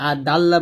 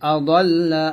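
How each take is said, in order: First: The d sound is plain and light. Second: The d sound is emphatic and heavy. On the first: The speaker calls it wrong. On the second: The speaker calls it right.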